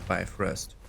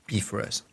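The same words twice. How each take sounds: First: The word has an English-style pronunciation. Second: The word has a Norse-style pronunciation. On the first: "you all will say Bifrost" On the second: "the correct pronunciation in Norse"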